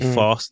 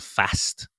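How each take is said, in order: First: The word is said in a London accent. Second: The word is said in a non-London accent. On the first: "A London accent is a London accent, which means you have that kind of English accent where you say fast" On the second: "instead of fast"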